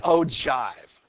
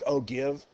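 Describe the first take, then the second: First: It does not sound like 'oh give'. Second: It sounds like the words 'oh give'. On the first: The speaker calls it right. "But it's actually" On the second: The speaker calls it wrong. "It looks like oh give. You know, like what you guys say, oh, give me a break"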